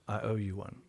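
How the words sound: It sounds dark and threatening. The speaker plans to get revenge. "a little bit more sinister"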